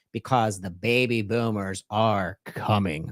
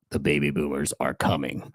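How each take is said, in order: First: Said in the usual way. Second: Low, ominous warning voice; spooky voice. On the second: Shown as a demonstration. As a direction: say it like a ghost story. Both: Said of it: "I'm gonna make it sound as spooky as I can".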